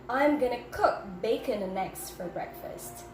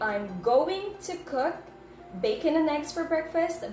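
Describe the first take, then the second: First: Going to is reduced to one word, gonna. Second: Going to is said fully as two words. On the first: "but I said I'm gonna" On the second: "I did not say"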